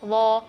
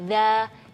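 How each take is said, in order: First: The sound is thick, with a raised tongue. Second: The sound is thin, with a flat tongue. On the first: The speaker calls it wrong. "enggak boleh wo" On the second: The speaker calls it right. "kalau huruf dzal itu lidah kita datar atau istifal"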